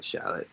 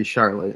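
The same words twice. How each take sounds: First: Charlotte softly as SHA-lit, no R; local dropped-R pronunciation. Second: Charlotte as SHAR-lit, R sounded; standard pronunciation with R. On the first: Forecaster correcting to the local way, Charlotte as SHA-lit. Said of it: "we leave stuff off". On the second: Forecaster showing what locals don't say, Charlotte with a clear R. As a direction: say the R fully in Charlotte. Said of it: "It wouldn't be Charlotte". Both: Shown as a demonstration.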